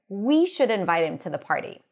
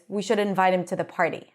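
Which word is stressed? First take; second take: We; none. First: We is higher in pitch and longer. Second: No word gets extra pitch or length. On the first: It should be us who invite him. "When I highlight we by using pitch and length" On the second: It simply shares an idea. "the normal way is"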